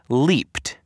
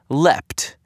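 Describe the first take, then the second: First: The vowel is a long ee sound. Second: The vowel is a short e sound. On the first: The speaker calls it right. "It turns out the word L-E-A-P-E-D is pronounced leaped" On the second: The speaker calls it wrong. "I pronounce it leapt every single time"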